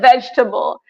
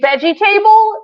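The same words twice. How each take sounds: First: It is pronounced the usual spoken way. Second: It is pronounced the way it is spelled. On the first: "instead of vegetable" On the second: "I used to say vegetable"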